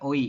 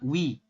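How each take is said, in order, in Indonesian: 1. Dua vokal terpisah, o lalu i. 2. Satu bunyi luncur yang diawali w. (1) "bukan oi" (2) "kita bacanya sama, wi"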